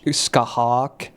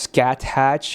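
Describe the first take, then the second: First: It is said as 'skahawk', with a 'hawk' ending. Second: It is said as 'scat hatch', with a 'hatch' ending. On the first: The speaker calls it right. "It's like sh- skahawk" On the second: The speaker calls it wrong. "it's not pronounced scat hatch"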